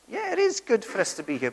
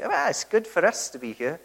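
First: "is" pushed up and held, the rest level; "it is good" with weight on "is"; stress on is. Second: Said in the usual way. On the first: Shown as a demonstration. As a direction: lean on "is" to correct the wrong version. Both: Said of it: "We should never say".

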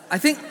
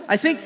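The two takes are said the same way.

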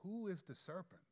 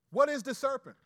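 First: Quiet question. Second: Suddenly loud and high; loud question. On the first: Pastor quietly posing the riddle to his hearers. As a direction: lean in and ask it softly. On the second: Pastor restarting his teaching with a loud call. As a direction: burst out with the question. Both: Real, not acted.

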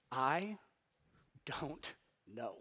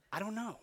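First: "I don't know" broken by long pauses, softly; deliberate pauses. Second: "I don't know" softly, in one piece; quiet repeat. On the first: Preacher reveals the three-word phrase, "I don't know" slow and spaced. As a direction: set "I" apart, then let "don't know" drop low and quiet. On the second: Preacher lets the phrase sink in, "I don't know" hushed and unbroken. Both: Shown as a demonstration.

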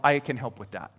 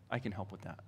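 First: Said in the usual way. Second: Very low, soft reassurance; hushed echo. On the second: Acted. Helper answering someone in need, hushed echo. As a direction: let it fall away almost to nothing. Imagined answer repeated very softly.

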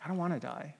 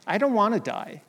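First: Quiet repeat. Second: Raised pleading cry. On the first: Preacher softly repeating Jesus' plea in Gethsemane. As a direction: drop it to a soft, hushed echo. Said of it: "is what he says". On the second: Preacher voicing Jesus crying out to God in the garden. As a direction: pitch it up high on I don't wanna die. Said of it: "he's crying out to God". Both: Retold or imitated.

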